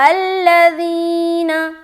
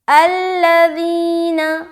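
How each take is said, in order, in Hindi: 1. बीच का व्यंजन नरम 'dh' की आवाज़ है। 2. बीच का व्यंजन नरम 'dh' की आवाज़ है।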